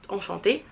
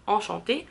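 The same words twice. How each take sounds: The two takes are said the same way.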